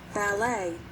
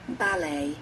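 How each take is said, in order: First: It is said in an American accent. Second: It is said in a British accent.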